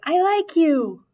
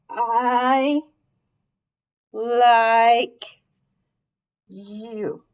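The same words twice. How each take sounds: First: It is read smoothly, like natural speech. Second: It is read choppily, word by word.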